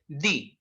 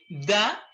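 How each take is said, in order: First: The word ends in a long ee vowel. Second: The word ends in a short uh vowel. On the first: It is the form used before a vowel sound. "If we have vowel sounds, we are going to say the" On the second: It is the form used before a consonant sound. "we're going to say the when we have consonant sounds"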